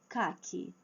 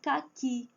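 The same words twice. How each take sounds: First: "caqui" as CA-qui, ending weak; wrong stress on first syllable. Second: "Caqui" as ca-QUI; stress on last syllable. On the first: Teacher shows the mistake, "caqui" stressed on CA. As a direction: hit CA and drop the end of "caqui". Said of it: "Não é caqui". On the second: Teacher lists examples, "Caqui" stressed on final QUI. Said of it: "a última sílaba é a forte". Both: Shown as a demonstration.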